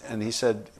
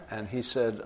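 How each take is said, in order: Both takes have the same delivery.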